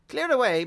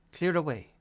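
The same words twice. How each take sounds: First: High, loud jovial call; jolly shout. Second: Said in the usual way. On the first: A narrator's reading. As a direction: shout it out merrily. Fezziwig shouts order.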